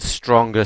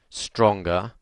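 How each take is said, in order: First: The word is said with the most power. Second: The word is said with more power. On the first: It asks for the experience to be at its strongest. "every time my voice gets more powerful" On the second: It asks for the experience to get stronger still. "every time my voice gets more powerful"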